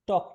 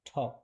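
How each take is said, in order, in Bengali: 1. প্রথম t ধ্বনিতে বাতাসের কোনো ঝলক নেই। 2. প্রথম t ধ্বনিতে বাতাসের জোরালো ঝলক আছে। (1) "টক না" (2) "টকে ঠ পড়া হয়। এটা হচ্ছে শুদ্ধ উচ্চারণ।"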